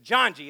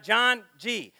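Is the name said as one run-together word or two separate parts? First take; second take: one word; two parts. First: The two parts run together as one word. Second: The two parts are said as separate words. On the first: The speaker calls it right. "It's like bungee. You just slam it all together" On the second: The speaker calls it wrong. "It's not John G"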